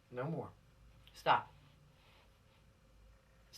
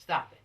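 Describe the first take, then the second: First: Breathy whisper, low and drawn out; whispered plea. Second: Said in the usual way. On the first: Real, not acted. Preacher quietly warning offenders to stop, whispered. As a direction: hush it like a secret warning.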